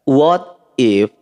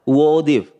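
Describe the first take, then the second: First: Both words are said fully and separately. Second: The words are shortened and run together.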